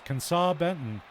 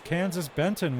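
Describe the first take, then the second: First: The first name ends with a 'saw' sound. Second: The first name ends with a 'z' sound. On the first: The speaker calls it right. "His name is actually pronounced Kensaw, as in Arkansas" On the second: The speaker calls it wrong. "I'm sorry, I, I just got a word from our producers"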